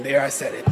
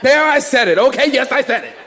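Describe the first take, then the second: First: Low, quiet aside; muted admission. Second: Punchy, raised-pitch confession to the room; defiant admission. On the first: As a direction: slip it in under your breath, low. Muted aside, then repeated loudly. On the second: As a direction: own up to it boldly for a laugh. Repeats the muted admission loudly. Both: Real, not acted.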